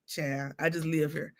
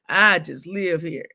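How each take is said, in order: First: Soft mumble. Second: Said in the usual way. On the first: Retold or imitated.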